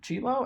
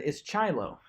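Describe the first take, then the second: First: Chilo as CHEE-lo, lifted in a higher question; correct pronunciation. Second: Chilo said as CHAI-lo; flipped pronunciation. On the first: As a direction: imitate a substitute asking for Chilo, "CHEE-lo?". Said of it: "pronounced his name right". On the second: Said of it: "He flipped it up on him". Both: Retold or imitated.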